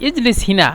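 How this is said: The last word is said with an 'i' vowel. This is the Saudi regional form. "সৌদিরা হিনা বলে"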